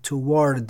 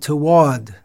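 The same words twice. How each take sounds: First: The R sound is clearly pronounced. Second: The R sound is left silent. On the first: The speaker calls it wrong. "It would sound a little strange if you said toward and deliberately pronounce the R" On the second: The speaker calls it right. "It's silent"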